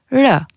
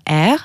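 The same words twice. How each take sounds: First: R tapped, said as "reu"; tongue-tip r plus eu for r; r as a light "ruh", not "erre"; Albanian letter sound. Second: Said in the usual way. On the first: Shown as a demonstration. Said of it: "ça se prononce r". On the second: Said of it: "ça se prononce".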